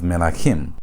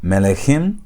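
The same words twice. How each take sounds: First: Melachim with an A vowel before the final -chim; a in second syllable. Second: Melechim with an E vowel before the final -chim; e in second syllable. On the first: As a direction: say me-la-CHIM, opening the middle of melachim to A. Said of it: "lengthened from sego to kametz". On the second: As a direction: say me-le-CHIM, keeping the middle E in melechim. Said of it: "Instead of you having melechim". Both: Shown as a demonstration.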